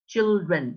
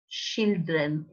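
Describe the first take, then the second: First: The word begins with a clear ch sound. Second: The word does not begin with a ch sound. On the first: The speaker calls it right. "the correct pronunciation is is ch" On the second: The speaker calls it wrong. "awful to my ears"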